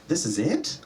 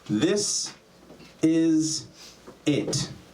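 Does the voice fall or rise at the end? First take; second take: rise; fall. First: The voice rises at the end. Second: The voice falls at the end.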